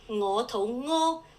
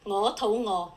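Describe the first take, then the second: First: Its final tone gives the meaning 'diarrhea'. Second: Its final tone gives the meaning 'hungry'. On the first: The speaker has a stomach upset. "means I have diarrhea" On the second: The speaker wants food. "means I'm hungry"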